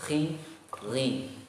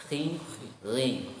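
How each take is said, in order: Both takes have the same delivery.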